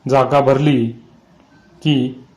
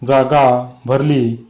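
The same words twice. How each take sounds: First: Said in the usual way. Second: Drawn out very slowly, each syllable held; slow eerie. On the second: A narrator's reading. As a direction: stretch "जागा भरली" slowly like a spell. Eerie line repeated in story. ("जागा भरली" खूप सावकाश, ओढून)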